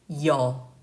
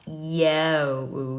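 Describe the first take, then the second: First: The vowel is plain, not exaggerated. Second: The vowel is exaggerated. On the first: The speaker calls it right. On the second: The speaker calls it wrong.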